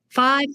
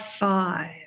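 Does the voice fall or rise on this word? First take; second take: rise; fall. First: The pitch rises on the word. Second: The pitch falls on the word. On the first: More numbers follow. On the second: It is the last number.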